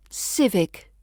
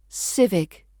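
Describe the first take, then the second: No difference in how they are said.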